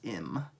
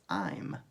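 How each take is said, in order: First: It begins with a short i vowel. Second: It begins with the long 'eye' vowel. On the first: The speaker calls it wrong. "You don't say this is im" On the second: The speaker calls it right. "you say it's I'm, because that acknowledges where it comes from, which is I"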